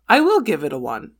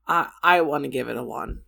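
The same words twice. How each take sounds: First: Will pressed with a touch more weight; stress on will. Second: Said in the usual way. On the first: Real, not acted. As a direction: lean on will to decide. Rating the movie.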